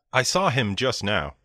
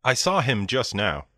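The two takes are said the same way.

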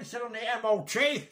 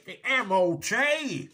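First: Said in the usual way. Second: The M O T spelled out slowly, letter by letter; slow down and hammer each letter of M O T; exasperated, deliberate spelling of M O T; stress on M O T. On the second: Acted. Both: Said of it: "angry repeat on a phone call".

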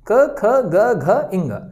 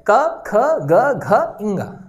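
First: Said in the usual way. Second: क, ख, ग, घ, इंगा drawn out slowly letter by letter; slow sounded-out letters. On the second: Shown as a demonstration. Teacher showing students how to sound out क ख ग घ इंगा, very slow. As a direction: stretch each of क ख ग घ इंगा so the nasal इंगा rings. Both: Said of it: "आप उच्चारण करके देखें".

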